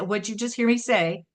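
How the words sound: It sounds like a scolding parent.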